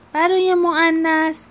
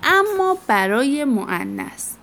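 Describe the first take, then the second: First: "برای مؤنث" repeated much higher and emphatic. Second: Said in the usual way. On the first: Shown as a demonstration. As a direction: repeat "برای مؤنث" pitched up to grab attention. (تکرار با تأکید و صدای بالاتر)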